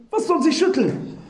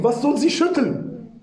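First: "was" raised higher, incredulous; stress on was. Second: "sie" slightly leaned on, falling end; stress on sie. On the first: Preacher repeats the question in disbelief, "was" raised higher. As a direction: ask "Was soll sie schütteln?" punching "was" higher. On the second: Preacher questions the verse, stressing "sie". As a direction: ask "Was soll sie schütteln?" stressing "sie". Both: Shown as a demonstration. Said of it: "Hallo, sie ist schwach".

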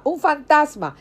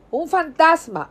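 First: Repeated high, louder fearful cry; frightened shout. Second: High, louder cry of a ghost sighting; frightened shout. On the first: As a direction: shout "¡Un fantasma!" again, still pitched up. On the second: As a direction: yell "¡Un fantasma!" in fear, pitched up. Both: Acted. Disciples in the boat crying out in fear.

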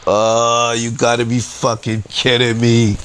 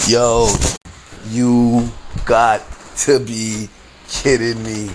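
First: Drawn-out "Oh", then one running groan of disbelief; exasperated disbelief. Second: Very slow, each word set apart; slow disbelief. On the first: Customer looking up at the arriving police, exasperated disbelief. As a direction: groan it out in a single retold breath. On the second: Customer seeing who walks in, slow disbelief. Repeats it slowly for emphasis. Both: Retold or imitated.

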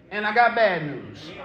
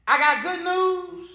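First: Low, subdued doctor's announcement; bad-news announcement. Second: Raised, drawn-out doctor's announcement; good-news announcement. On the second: Retold or imitated.

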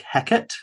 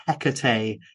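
First: Hecate said as HEK-ut; two-syllable Hecate. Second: Hecate said as HEK-uh-tay; three-syllable Hecate. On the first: Host recalls the Shakespearean version, Hecate as HEK-ut. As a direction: end Hecate on a short "ut", no final vowel. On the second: Host quotes the name from an earlier video, Hecate as HEK-uh-tay. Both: Shown as a demonstration. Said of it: "I said the name Hecate like Hecate".

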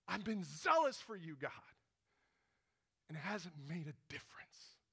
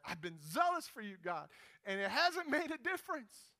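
First: Zealous complaint, first time. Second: Zealous complaint, second time. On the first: Elijah answers God in the cave, zeal sinking to whisper. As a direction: protest that falls away to a whisper. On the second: Elijah tells God a second time, protesting more insistently. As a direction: protest rising higher to the end. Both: Retold or imitated. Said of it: "after the second time Elijah said that".

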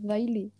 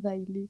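First: Daily said slowly, stress on the final I, dai-LI; slow, careful Daily, stressed on the end; say the name carefully. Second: Daily with the accent on the last I, dai-LI; the name said right. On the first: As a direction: drag out Daily with the accent on the last I. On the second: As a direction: say Daily, stressing the final I. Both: Shown as a demonstration. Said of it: "con un acento en la última I".

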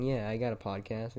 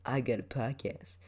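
First: Said in the usual way. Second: Lightly put-on smug bragging voice; bragging asshole. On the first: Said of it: "it's just cool saying". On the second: Mimicking how he doesn't want to sound, mock bragging. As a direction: show off like an asshole. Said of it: "sound like an asshole".

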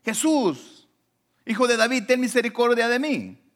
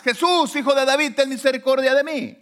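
First: High, projected imitation of a plea; retold pleading cry. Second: High, loud imitated shout; louder retold cry. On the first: Blind man begging Jesus for mercy, imitated cry. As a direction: call out for mercy, short of a full shout. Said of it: "Y le gritaba". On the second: Blind man shouting over the crowd to Jesus, insistent imitated cry. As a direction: cry out harder over those silencing you. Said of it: "él gritaba más".

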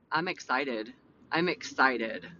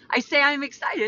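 First: Low, unexcited-sounding statement; deadpan real voice. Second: Higher, perkier delivery; changed excited voice. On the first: Host showing husband her real voice, low deadpan. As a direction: say it low and understated. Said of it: "Like, that's my real voice". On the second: Host telling husband she is excited, in raised voice. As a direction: lift it high to sound excited. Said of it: "why I changed my voices". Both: Shown as a demonstration.

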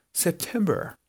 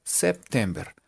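First: September higher and softer, posh English-style; posh "gomelo" pronunciation. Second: September read as written, with Spanish vowels; literal reading. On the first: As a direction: put on a preppy English September. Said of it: "pronunciarlo un poquito más gomelo". (September más gomelo, agudo y suave) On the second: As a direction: say September just as it is spelled. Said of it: "Así, literal". (September literal, leído a la española) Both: Shown as a demonstration.

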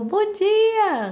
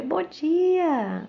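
First: Bright, much higher sing-song good morning; cheery greeting. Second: Cheery greeting reply. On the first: Neighbour greeting her on the street, cheery and high. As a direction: chirp it out like a happy neighbour. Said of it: "a pessoa". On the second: She answers the neighbour's greeting, bright and high. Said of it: "Aí". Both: Retold or imitated.

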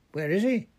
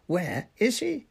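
First: High, loud demand; yelling. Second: High-pitched yelled demand, more stretched out; drawn-out yell. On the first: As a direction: yell it sharply upward as a question. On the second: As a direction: yell each word, rising at the end. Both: A narrator's reading. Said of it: "yelled Fudge".

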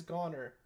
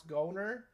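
First: Goner with an open "ah" vowel, "GAH-ner"; short-o pronunciation. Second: Goner with a long O, as in "go"; long-o pronunciation. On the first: Host correcting a game title, Goner with open short O. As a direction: say Goner to rhyme with "honor". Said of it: "but it's Goner". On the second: Host trying to pronounce a game title, Goner with long O. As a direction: say Goner like "go" plus "ner". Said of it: "So I'm trying to, like, pronounce". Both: Shown as a demonstration.

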